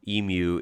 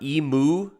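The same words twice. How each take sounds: First: It uses the common Australian pronunciation. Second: It uses the common American pronunciation. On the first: The speaker calls it right. "Emu is better and, and feels more natural to me" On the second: The speaker calls it wrong. "emu is what you hear a lot in the U S"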